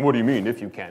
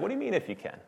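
First: It is said in a stern, rebuking tone. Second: It is said warmly, with a smiling tone.

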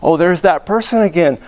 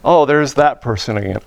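First: The voice sounds happy and delighted. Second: The voice sounds annoyed and dismayed. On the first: Seeing this person is a joy. The speaker calls it right. "Oh, joy. Oh, wonder" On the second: Seeing this person is unwelcome. The speaker calls it wrong. "Oh, no"

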